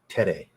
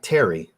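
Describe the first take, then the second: First: It does not end with an 'ee' sound. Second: It ends with an English 'ee' sound. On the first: The speaker calls it right. "I'm trying to do the accent the best I can" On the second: The speaker calls it wrong. "not Terry"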